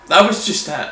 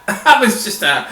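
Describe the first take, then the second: First: Said in the usual way. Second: Said again through a laugh, higher; amused laughing echo; laughing repeat. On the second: Real, not acted.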